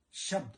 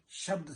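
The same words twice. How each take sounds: First: शब्द said in two syllables, "sha-bad"; Punjabi form of शब्द. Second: Said in the usual way. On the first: Shown as a demonstration. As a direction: open a short vowel between ब and द in शब्द. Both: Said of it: "शब्द से आया है".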